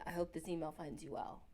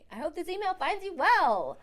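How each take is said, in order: First: It is said flatly, without enthusiasm. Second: It is said brightly, with enthusiasm.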